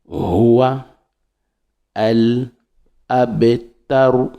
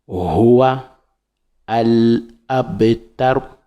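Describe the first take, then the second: No difference in how they are said.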